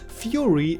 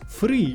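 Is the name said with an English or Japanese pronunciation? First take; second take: English; Japanese. First: The name is said the English way. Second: The name is said the Japanese way. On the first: The speaker calls it wrong. "it's still not Fury" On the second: The speaker calls it right. "please use the Japanese pronunciation"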